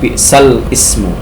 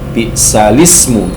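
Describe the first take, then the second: First: A glottal stop separates l and the vowel. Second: The l links straight into the vowel. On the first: The speaker calls it wrong. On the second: The speaker calls it right. "jadi li, bukan i tapi li"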